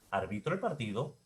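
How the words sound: The pitch rises at the end. It is a question. "si lo vuelvo pregunta, lo puedo volver ascendente"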